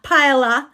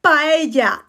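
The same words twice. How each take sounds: First: Paella mit hartem l, pa-e-la; wrong paella. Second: Paella mit pa-e-ja, ll wie j; Spanish paella. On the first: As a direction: paella falsch mit l sagen. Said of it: "not paella". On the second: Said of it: "Not paella". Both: Shown as a demonstration.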